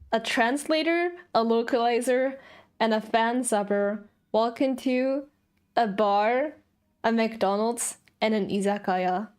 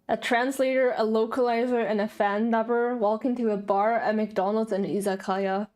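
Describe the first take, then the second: First: It is said slowly. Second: It is said at normal speed.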